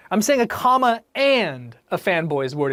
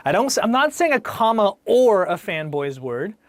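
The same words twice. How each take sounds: First: And said clearly against or; stress on AND. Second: Or said clearly and set against and; stress on OR. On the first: Teacher correcting or to and, leaning on and. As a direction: make and the word that's right. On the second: Teacher contrasting or with and, leaning on the word or. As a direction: make or the word that's wrong. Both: Shown as a demonstration. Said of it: "Notice how I said".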